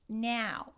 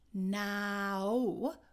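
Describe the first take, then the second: First: The diphthong has a northern-shifted vowel. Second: The diphthong has its standard, unshifted vowel. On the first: "we're going to have now. Now. Do you hear that?" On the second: "instead of saying now"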